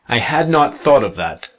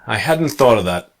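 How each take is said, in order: First: Had not is said as two full words. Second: Hadn't is contracted with a silent T.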